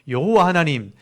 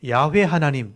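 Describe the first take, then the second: First: The name is said with three syllables, ye-ho-wa. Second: The name is said with two syllables, ya-hwe. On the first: This is the familiar traditional form of the name. "여호와는 우리에게 익숙해져 있기 때문에 그냥 여호와라고 하시면 되고" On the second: This is the original form of the name. "원래대로 발음을 하고 싶다면 야훼라고 하시면 돼요"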